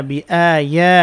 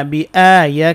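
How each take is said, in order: Both takes have the same delivery.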